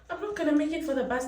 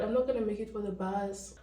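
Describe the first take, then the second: First: Higher, panicked repeat. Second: Said in the usual way. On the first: Real, not acted. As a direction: wail it in a rush of panic.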